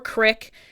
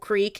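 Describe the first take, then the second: First: The vowel is a short 'i' sound. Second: The vowel is a long 'ee' sound. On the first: This is how other people say it. "I hear people say crick all the time" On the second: This is how the speaker normally says it. "I say creek"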